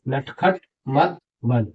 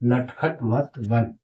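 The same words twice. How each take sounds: First: नटखट मत बन read out slowly word by word; slow reading demo. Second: Slow reading demo. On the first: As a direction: spell it out slowly for the class. (धीरे-धीरे पढ़कर दिखाना) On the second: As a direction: settle into the repeat. (धीरे और थोड़ा नरम दोहराना) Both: Shown as a demonstration.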